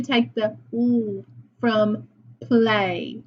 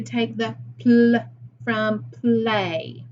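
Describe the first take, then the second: First: Only the l of "play" sounded, a held hum heard as "oo"; "oo" as one drawn-out l sound, without the p; single sound isolated. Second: "pl" said as one blended consonant sound, then "play"; whole cluster sounded. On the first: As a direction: hold the lone l sound, written "oo", before "play". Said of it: "let me say it the correct way". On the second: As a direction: sound out both consonants together in "pl". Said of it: "I said that wrong". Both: Shown as a demonstration.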